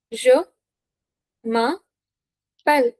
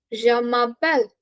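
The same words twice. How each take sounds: First: Very slow "Je m'appelle", gaps between syllables; slow, separated teaching delivery of "Je m'appelle"; word by word. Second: Said in the usual way. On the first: Shown as a demonstration. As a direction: break "Je m'appelle" apart for learners. Teacher breaks phrase up for learners.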